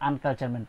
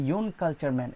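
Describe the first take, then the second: First: আনকালচার man starting with a short "un"; correct pronunciation. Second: ইউন কালচার man with a "you" sound at the start; wrong pronunciation. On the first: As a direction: open আনকালচার with a clear "un" sound, no y. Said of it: "আমরা সবসময় বলি". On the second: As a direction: start with ইউন like "yoon", the mistaken way. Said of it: "আমরা কিন্তু বলি না". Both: Shown as a demonstration.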